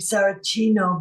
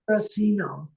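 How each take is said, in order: First: The name is pronounced with Italian sounds. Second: The name is pronounced with American English sounds. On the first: "the Italian pronunciation would be" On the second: "but here in America"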